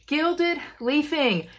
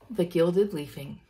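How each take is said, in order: First: Gilded stretched out slowly and higher, falling tune; mock grand. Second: Said in the usual way. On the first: Shown as a demonstration. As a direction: announce it slowly like a prize. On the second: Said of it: "Gilded leafing. Yay!".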